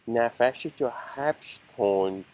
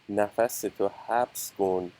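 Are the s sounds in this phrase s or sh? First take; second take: sh; s. First: The s sounds are said as sh. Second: The s sounds are said as plain s. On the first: "an opium addict accent" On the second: "Instead of saying"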